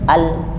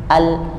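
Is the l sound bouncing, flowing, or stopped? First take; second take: stopped; stopped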